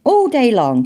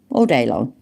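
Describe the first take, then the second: First: "All day long" said high and emphatically; emphatic repeat. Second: Said in the usual way. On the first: Real, not acted. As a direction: hammer home "All day long" in a raised voice.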